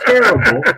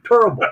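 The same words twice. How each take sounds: First: The first vowel is the ordinary one. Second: The first vowel sounds like a U. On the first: "not terrible" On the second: "terrible with a U"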